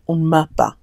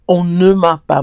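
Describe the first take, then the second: First: The word 'ne' is dropped from the phrase. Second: The word 'ne' is fully pronounced. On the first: "in casual spoken French, the pronunciation of the E sound in words sometimes gets omitted" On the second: "technically, it would be"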